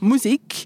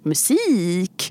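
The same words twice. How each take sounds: First: The word is said in a typical learner's way. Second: The word is said in the native Swedish way. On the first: The speaker calls it wrong. "instead of musik, which is a very common mistake" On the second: The speaker calls it right. "you might feel a bit ridiculous when you're saying things like musik"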